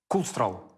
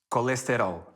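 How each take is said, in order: First: Unstressed vowels are reduced or swallowed. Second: Every vowel is pronounced fully and clearly. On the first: "Português de Portugal" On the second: "português do Brasil"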